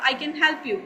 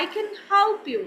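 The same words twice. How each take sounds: First: Said in the usual way. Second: Higher-pitched native English accent, tongue twisted on "help"; imitated native English accent. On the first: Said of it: "this is my Pakistani style". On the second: Shown as a demonstration. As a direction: put on an English speaker's style. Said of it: "अंग्रेज़ों का style adopt किया".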